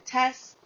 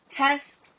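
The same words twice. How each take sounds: First: The word ends without the final t. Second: The word ends with a clear final t.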